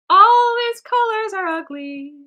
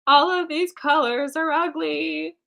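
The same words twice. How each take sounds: First: High, loud, drawn-out whine; escalated wailing complaint. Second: Higher, slow complaint; drawn-out dismay. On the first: Artist despairs over the ugly colors, loud wailing complaint. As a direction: wail it slowly, way up high. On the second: Artist grumbles at the ugly colors, drawn-out dismay. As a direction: drag out the complaint, pitched up. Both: Real, not acted.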